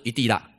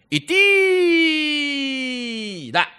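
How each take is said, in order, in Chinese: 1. 这个词短促地说。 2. 这个词拖长了说。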